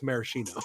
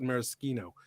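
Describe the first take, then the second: First: Maraschino softer, as mara-SHEE-no; sh pronunciation. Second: Maraschino with a hard SK, mara-SKEE-no; Italian pronunciation. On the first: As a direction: say maraschino with sh, like cheap red cherries. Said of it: "If it's the neon red cherries". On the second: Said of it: "'cause it's Italian". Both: Shown as a demonstration.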